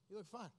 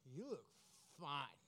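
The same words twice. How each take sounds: First: It sounds flat and unimpressed. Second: It sounds warm and admiring.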